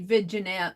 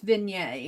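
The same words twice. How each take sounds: First: The g is sounded as in the spelling. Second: The g is silent in the word. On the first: The speaker calls it wrong. "I say vignette" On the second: The speaker calls it right. "but it's vignette, I believe"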